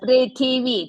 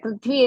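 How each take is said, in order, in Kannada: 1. ಈ ಪದಕ್ಕೆ ಮೂರು ಉಚ್ಚಾರಾಂಶಗಳಿವೆ, 'thi' ಪೂರ್ಣವಾಗಿದೆ. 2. ಈ ಪದಕ್ಕೆ ಎರಡು ಉಚ್ಚಾರಾಂಶಗಳಿವೆ, 'i' ಸ್ವರ ಇಲ್ಲ. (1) "थी इस् देयर" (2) "नो"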